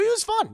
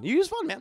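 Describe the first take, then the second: First: Playful high. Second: Said in the usual way. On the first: Real, not acted.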